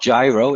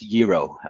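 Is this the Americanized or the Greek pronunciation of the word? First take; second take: Americanized; Greek. First: It is pronounced the Americanized way. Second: It is pronounced the Greek way. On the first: The speaker calls it wrong. "it's not gyro" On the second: The speaker calls it right. "that's the way you should pronounce it"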